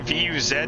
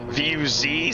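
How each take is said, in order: First: The last letter is said the non-American way. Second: The last letter is said the American way.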